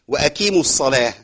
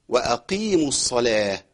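First: The Q sound is pushed forward toward K. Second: The Q sound is deep and kept in place. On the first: The speaker calls it wrong. "ما تنفعش خالص" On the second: The speaker calls it right. "هي ايه؟"

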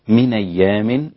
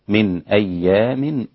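First: The glottal stop is dropped and the words run together. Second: The glottal stop before the second word is fully pronounced. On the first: "هذا النقل" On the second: "والتحقيق للباقين"

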